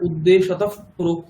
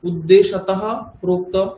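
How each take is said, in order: First: The final sound is a friction between the lips. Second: The final sound is a plain breathy h. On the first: "উপধ্মানীয় হয়ে গেলে" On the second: "বিসর্গ ছিল"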